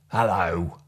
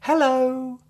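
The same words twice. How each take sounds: First: It is said in an angry tone. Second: It is said in a happy tone. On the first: "an angry hello" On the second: "A happy hello"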